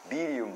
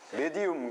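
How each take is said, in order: First: The word is said with an English-style pronunciation. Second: The word is said with a Korean-style pronunciation. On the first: "영어 발음으로는" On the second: "이 한국어 발음으로"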